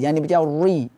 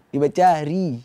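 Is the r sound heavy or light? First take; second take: heavy; light. First: The r sound is heavy and thick. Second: The r sound is light and thin. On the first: The speaker calls it wrong. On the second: The speaker calls it right. "Ri tipis"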